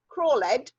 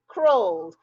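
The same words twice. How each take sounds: First: The ending is an extra 'ed' syllable. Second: The ending is a single plain 'd' sound. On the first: The speaker calls it wrong. "you sounded out this word and you said r, or, l, ed" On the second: The speaker calls it right. "it must just be d"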